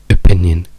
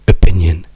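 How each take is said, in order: First: The unstressed O vowels are reduced to schwa. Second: The same.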